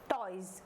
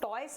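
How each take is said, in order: First: The word ends with a z sound. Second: The word ends with an s sound. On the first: The speaker calls it right. "यहाँ पर हम इसको जा पढ़ेंगे" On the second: The speaker calls it wrong. "टॉयज नहीं बोलेंगे"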